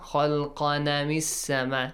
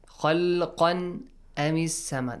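First: The noon takes a vowel, joining the next word. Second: The noon stays separate before a clear glottal stop. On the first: "They put the fatha on the top of the tanween" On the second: "That's correct"

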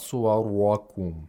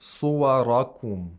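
First: The r is made overly heavy and throaty. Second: The r is made only moderately heavy. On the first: The speaker calls it wrong. "not suwarakum" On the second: The speaker calls it right. "Or suwarakum"

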